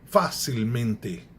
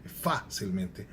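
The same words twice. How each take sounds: First: Facilmente drawn out slowly, stress on the first syllable; slow, deliberate facilmente; slow Spanish pronunciation. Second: Facilmente said the Portuguese way, stress on -men-; softer Portuguese facilmente; Portuguese pronunciation. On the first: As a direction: sound out facilmente slowly with a teacher's weight on it. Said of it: "eu poderia dizer". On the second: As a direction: contrast it as the Portuguese facilmente, quieter. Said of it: "como em português". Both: Shown as a demonstration.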